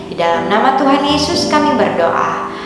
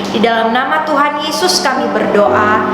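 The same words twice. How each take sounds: Both takes have the same delivery.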